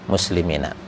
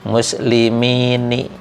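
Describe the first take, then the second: First: The word ends with the syllable 'na'. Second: The word ends with the syllable 'ni'. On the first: The speaker calls it right. "kalau fathah itu ringan" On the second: The speaker calls it wrong. "Kalau dibaca ni itu nanti ada berturut-turut harokat kasroh"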